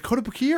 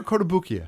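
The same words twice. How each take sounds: First: "Kotobukiya" offered as one possible pronunciation; first pronunciation option. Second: "Kotobukiya" with the sounds shifted, closing the either-or question; alternative pronunciation. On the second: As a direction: say "Kotobukiya" as the contrasting second option. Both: Shown as a demonstration. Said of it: "is it Kotobukiya or Kotobukiya?".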